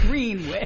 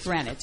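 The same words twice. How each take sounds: First: The name is said the other, non-Connecticut way. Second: The name is said the Connecticut way. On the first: The place is the local township. The speaker calls it right. "It's not Greenwich. It's Greenwich" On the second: The place is taken to be in Connecticut. The speaker calls it wrong. "probably most people think it's in Connecticut, right? Right. They think it's Greenwich"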